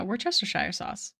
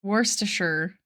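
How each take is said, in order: First: "Worcestershire" ending in "shire", rhyming with fire; full-spelling pronunciation. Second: "Worcestershire" squeezed to "WUSS-tuh-sher"; shortened pronunciation. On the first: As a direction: say every part of "Worcestershire", with "shy-er" at the end. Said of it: "Am I saying it wrong?". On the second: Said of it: "We gotta Google it". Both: Shown as a demonstration.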